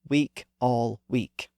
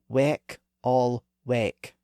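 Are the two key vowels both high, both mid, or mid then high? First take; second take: both high; both mid. First: Both key vowels are the same high vowel. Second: Both key vowels are mid vowels, and they differ. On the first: This is how it is said today. "the sounds have merged" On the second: This is how it was said before the vowel shift. "He would have used the vowels in positions three and two"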